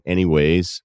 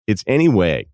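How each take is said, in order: First: "anyways" ending in an added S sound; "anyways" with the S tacked on the end. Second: "anyway" ending cleanly on the vowel, no S; higher-pitched correction, "anyway" with no final S; anyway without S. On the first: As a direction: say "anyways", finishing on a clear S. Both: Shown as a demonstration. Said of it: "There's no S".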